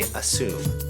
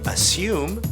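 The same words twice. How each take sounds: First: A plain oo vowel with no y sound. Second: A y sound comes before the oo vowel. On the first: "we say" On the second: "They say"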